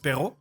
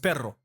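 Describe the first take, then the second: First: The r is said as a French throat sound. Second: The r is rolled with the tongue tip. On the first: "If I do it with a French accent" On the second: "with a more Spanish accent"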